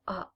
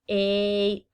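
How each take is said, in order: First: The vowel is the short sound, as in apple. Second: The vowel is the long sound, as in apron. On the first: "the short sounds in A is a" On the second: "the long vowel sounds"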